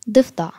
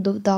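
First: ضفدع in full classical form, clear d-f-d with a firm ending ain; classical Arabic pronunciation. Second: ضفدع in relaxed everyday Egyptian form, the first d softened and the ending loose; colloquial Egyptian pronunciation. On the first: Teacher showing children the Fusha way to say a word, carefully. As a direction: say ضفدع the careful Fusha way, every letter sounded. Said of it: "ونطق ضفدع في اللغة العربية الفصحى". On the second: Teacher contrasting everyday Egyptian speech with Fusha, casually. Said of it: "أما في اللغة العامية إحنا بنقول". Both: Shown as a demonstration.

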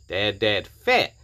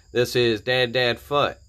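First: Fat said with the vowel of cat, slow and careful; self-correction, landing on Fat; corrected name. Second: Fut said with the vowel of foot, slow and deliberate; first try at the name, said as Fut; misread name. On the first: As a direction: fix the name to Dad Dad Fat, rhyming with hat. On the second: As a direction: read the name as Dad Dad Fut, rhyming with put. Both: Real, not acted. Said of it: "Dad, Dad Dad Fat".

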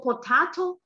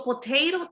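First: "potato" as "po-TAH-to", rising like a question; British pronunciation. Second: "potato" as "po-TAY-ro", rising; American pronunciation. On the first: Student asking about Europe, "potato" said the British way. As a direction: say "potato" with a broad AH. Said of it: "uno es inglés británico". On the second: Teacher reassuring the student, "potato" said the American way. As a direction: say "potato" with AY and a flapped T. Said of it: "el otro es inglés americano". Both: Shown as a demonstration.

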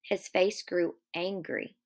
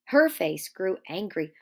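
First: Said in the usual way. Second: "her" stressed as a correction; light corrective emphasis on "her". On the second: Real, not acted. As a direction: hit the word "her" to correct the misreading.

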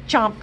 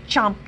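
No difference in how they are said.

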